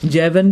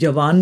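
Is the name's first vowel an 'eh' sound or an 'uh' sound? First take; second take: eh; uh. First: The first vowel is an 'eh' sound. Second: The first vowel is a short 'uh' sound. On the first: It follows the English reading of the spelling. "जेवन भी कह सकते हैं" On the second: It follows the Indian-language word for young man. "हम उसे जवान भी pronounce कर सकते हैं"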